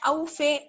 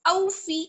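First: The final vowel is a broader 'ay' sound. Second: The final vowel is a thin 'ee' sound. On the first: The speaker calls it wrong. "ऐसे नहीं पढ़ना है, ये मजहूल हो जाएगा" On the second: The speaker calls it right. "मारूफ तरीके से पढ़ेंगे हम"

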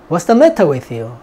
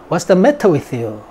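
The two takes are said the same way.

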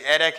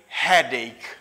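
First: The opening h sound is dropped. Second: The opening h sound is clearly pronounced. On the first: The speaker calls it wrong. "Do not say headache anymore" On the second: The speaker calls it right. "Say headache"

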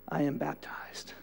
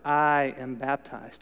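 First: It is said aloud at normal volume. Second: It is said noticeably louder.

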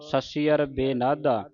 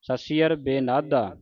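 Both takes have the same delivery.

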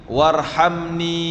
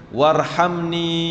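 No difference in how they are said.

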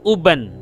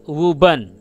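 First: The word begins directly with a vowel. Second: The word begins with a w sound. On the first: The speaker calls it wrong. "bukan uban" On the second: The speaker calls it right. "kata ini dibaca wuban"

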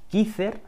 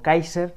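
First: The name is pronounced the Spanish way. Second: The name is pronounced the English way. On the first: "según la pronunciéis en inglés o en español" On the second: "como le llaman los americanos"

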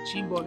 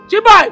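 First: The name is said at a normal, soft level. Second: The name is shouted loudly.

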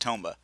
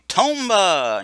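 First: It is said flatly and plainly. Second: It is said loudly and excitedly.

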